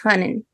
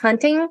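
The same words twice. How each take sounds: First: The t and final g sounds are dropped. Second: The word ends with a full 'ing' sound. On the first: This is the natural local pronunciation when not careful. "the way I would say it, if I'm slipping up" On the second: This is the consciously corrected, careful pronunciation. "the way I've trained myself to say it"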